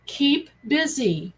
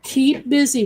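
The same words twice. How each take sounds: First: Stressed slow keep busy; slow emphatic. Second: Firm loud Keep busy; louder emphatic. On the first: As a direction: keep busy drawn out slowly. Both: Shown as a demonstration. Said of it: "When I say keep busy".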